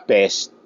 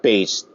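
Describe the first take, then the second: First: The vowel sounds like the one in 'pet'. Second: The vowel sounds like the one in 'pay'. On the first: "D D's pronunciation"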